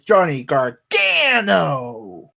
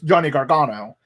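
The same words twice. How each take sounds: First: The name is said with strong, announcer-like emphasis. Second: The name is said plainly, without extra emphasis. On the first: "you have to put the emphasis on his name" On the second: "when he just says Johnny Gargano"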